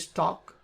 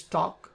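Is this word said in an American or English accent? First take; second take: English; English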